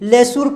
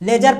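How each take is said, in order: First: The middle consonant is an s sound. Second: The middle consonant is a z-like sound. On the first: The speaker calls it wrong. "इस तरह का उच्चारण गलत हो जाएगा" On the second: The speaker calls it right. "लेजर पढ़ेंगे"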